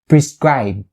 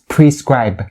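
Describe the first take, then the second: First: The final B is stopped without a release. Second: The final B is clearly released and audible. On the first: "you can stop it like this" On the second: "make the B sound enunciated and loud and clear"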